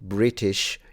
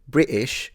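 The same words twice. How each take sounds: First: The t in the middle is clearly pronounced. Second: The t is replaced by a glottal stop. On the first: "instead of saying British" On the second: "you say British. Uh-uh. That's the glottal stop"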